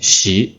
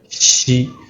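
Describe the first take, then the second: First: The syllable is said with a rising second tone. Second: The syllable is said without a rising second tone. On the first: It means study. "the second tone 习" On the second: It means cherish. "it's not the second tone"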